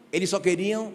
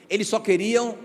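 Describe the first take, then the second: No difference in how they are said.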